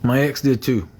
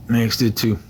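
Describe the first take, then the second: No difference in how they are said.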